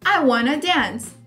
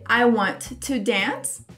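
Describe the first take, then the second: First: The words 'want to' are reduced to 'wanna'. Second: The words 'want to' are said in full. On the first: "é a contração de want to" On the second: "eu posso dizer I want to dance"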